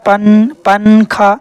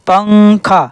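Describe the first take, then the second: First: The n is pronounced as a full separate consonant. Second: The n is hidden as a nasal sound. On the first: The speaker calls it wrong. "कोई भी ये नहीं कहता" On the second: The speaker calls it right. "बल्कि सारे के सारे लोग कहते हैं"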